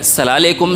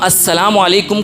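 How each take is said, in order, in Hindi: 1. अभिवादन को एक छोटे, संक्षिप्त शब्द में समेट दिया जाता है। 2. अभिवादन का हर अक्षर पूरा बोला जाता है।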